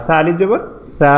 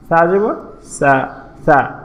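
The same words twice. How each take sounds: First: Final "সা" lengthened and even; drawn-out final "সা". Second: Said in the usual way. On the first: Shown as a demonstration. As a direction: stretch the last "সা" to a long held aa. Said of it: "টেনে পড়ব". (শেষের "সা" টেনে পড়া) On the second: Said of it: "আমরা আগে পড়েছিলাম".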